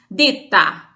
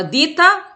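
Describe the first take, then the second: First: "Dita" as "ditta", holding the T before release; double T. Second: "dita" with a short single T. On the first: Teacher contrasting two words for students, doubled T in "Dita". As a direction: stop on the T in "Dita", then release it. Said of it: "a palavra com dois T's". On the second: Teacher contrasting two words for students, single T in "dita". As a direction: say "dita" with a light, undoubled T. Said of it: "só com T". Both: Shown as a demonstration.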